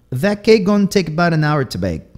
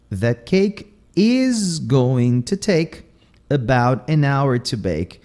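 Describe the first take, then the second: First: "gonna" and "about" cut short to "gon" and "bout", higher; Southern clipped words. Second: Slow, every word whole, "is going to" and "about"; full careful forms. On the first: Teacher giving a Southern example, "gonna" and "about" cut short. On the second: Teacher giving the standard version, slow, full "is going to". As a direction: spell out "is going to" and "about" slowly. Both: Shown as a demonstration. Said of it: "eles vão cortando aqui".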